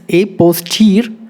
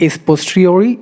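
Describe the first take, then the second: First: A POSTERIORI as "ay pos-teer-oh-eye"; corrected pronunciation. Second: POSTERIORI ending in "ree-OR-ee"; wrong pronunciation. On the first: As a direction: end POSTERIORI on a separate "oh, eye". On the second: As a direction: end POSTERIORI on an "ee" sound. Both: Shown as a demonstration. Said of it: "It's not a posteriori".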